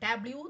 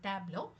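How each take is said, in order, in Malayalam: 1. ഈ വാക്ക് 'lyoo' എന്ന ശബ്ദത്തിലാണ് അവസാനിക്കുന്നത്. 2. ഈ വാക്ക് 'lo' എന്ന ശബ്ദത്തിലാണ് അവസാനിക്കുന്നത്. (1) "ടാബ്ല്യൂ എന്നല്ല" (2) "അതാണ് അതിൻ്റെ സൗണ്ട്"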